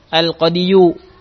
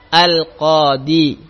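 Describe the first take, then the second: First: The word ends with a full 'yu' syllable. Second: The word ends on a plain 'i' sound. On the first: The final vowel is fully voiced, which Arabic speakers feel is heavy. The speaker calls it wrong. "Tidak mau mereka menyebutkan al-qadiyu" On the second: The final vowel is silent to avoid heaviness. The speaker calls it right. "langsung sukun saja terakhirnya al-qadi"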